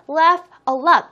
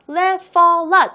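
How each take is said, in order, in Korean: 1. 각 단어를 따로, 끊어서 말합니다. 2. 단어들이 서로 이어져 하나로 말해집니다. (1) "이렇게 따로따로 분절시켜서 읽지 마시고요" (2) "이렇게 같이 읽어주세요"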